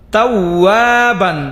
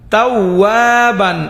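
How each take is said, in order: No difference in how they are said.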